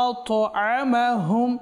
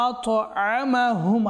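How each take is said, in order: Both takes have the same delivery.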